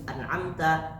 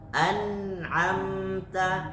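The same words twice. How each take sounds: First: The nun sound is cut short without holding. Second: The nun sound is held for one beat. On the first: The speaker calls it wrong. "Enggak boleh langsung an'amta" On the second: The speaker calls it right. "sama-sama satu ketukan"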